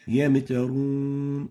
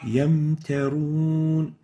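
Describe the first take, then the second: First: The m sound is released with an echoing bounce. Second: The m sound is held smoothly without any bounce. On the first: The speaker calls it wrong. "giving qalqalah to the meme while it has sukoon... This is wrong" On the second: The speaker calls it right. "The right way of pronouncing it is like this"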